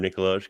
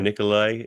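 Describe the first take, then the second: First: The name ends with a sounded J. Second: The name ends in an eye sound, no J. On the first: "with a J" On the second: "silent J"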